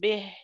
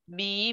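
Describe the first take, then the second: First: The vowel after the b is short and reduced. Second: The vowel after the b is full and complete. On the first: The speaker calls it wrong. "رجعت الآن للقديمة، ليست به" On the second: The speaker calls it right. "أتم الكسرة"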